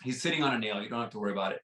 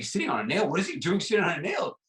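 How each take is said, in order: First: Said in the usual way. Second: Mock disbelief, rising higher into the second question; incredulous visitor. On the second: Visitor echoing the dog's owner, acted incredulity. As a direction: throw it back as a baffled question.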